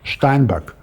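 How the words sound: The name is said in a German way, ending in k. "with K at the end, not G"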